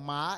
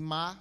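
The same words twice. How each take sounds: First: Ma is said with the tone meaning horse. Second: Ma is said with the neutral tone. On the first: The word means horse. "ma é cavalo" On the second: The word marks a question. "ma neutro, tom neutro, é para pergunta"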